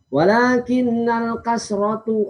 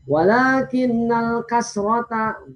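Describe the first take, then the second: First: The last word ends with a 'u' vowel. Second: The last word ends with an 'a' vowel. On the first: The speaker calls it wrong. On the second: The speaker calls it right.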